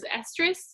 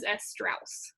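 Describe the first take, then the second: First: The word is said in its short form. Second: The word is drawn out with an extra sound.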